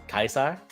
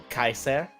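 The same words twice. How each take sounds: The two takes are said the same way.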